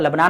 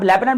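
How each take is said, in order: First: The name is said the Urdu way. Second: The name is said the English way. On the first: "अगर हम उर्दू की बात करें तो लेबनान आएगा" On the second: "इंग्लिश में जो यहां पर हम प्रोनाउंस करते रहते हैं"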